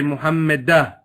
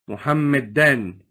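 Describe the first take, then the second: First: The word ends with an '-ah' sound. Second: The word ends with an '-an' sound. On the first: "If I was to stop here, I say Muhammadah" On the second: "if it's Mansoob"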